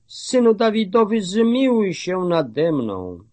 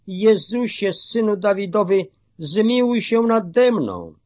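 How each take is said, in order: First: Calling more insistently. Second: Raised, high-pitched plea; calling out. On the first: Hushed beggar calls to Jesus still more insistently, pitched high. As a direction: start high and quick, then draw out the plea. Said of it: "coraz głośniej wołał". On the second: Blind beggar calls to Jesus for mercy, pitched high. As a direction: call out high, without really shouting. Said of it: "i zaczął wołać". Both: A narrator's reading.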